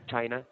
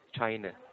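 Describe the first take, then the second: First: The final vowel is a full open 'ah'. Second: The final vowel is a weak schwa 'uh'. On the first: The speaker calls it wrong. "Not China" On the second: The speaker calls it right. "It's a schwa sound"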